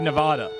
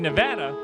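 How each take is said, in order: First: The middle vowel is a soft 'ah' sound. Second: The middle vowel sounds like the 'a' in 'cat'. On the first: It is how outsiders from the East Coast say it. The speaker calls it wrong. "people say Nevada, and that's wrong" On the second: It is how locals say it. The speaker calls it right. "we don't say the soft ah for Nevada"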